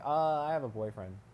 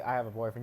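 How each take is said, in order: First: A hesitant "uh" comes before the words. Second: The words come at once with no hesitation. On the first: The person is probably lying. The speaker calls it wrong. "You wouldn't be like" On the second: The person really has a partner. The speaker calls it right. "you just say"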